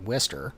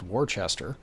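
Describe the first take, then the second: First: The word is shortened with letters dropped. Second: Every written letter is sounded out. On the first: This is how people actually say the name. "but you say it Worcester" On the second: This is how the written name looks. "which is spelled Worcester"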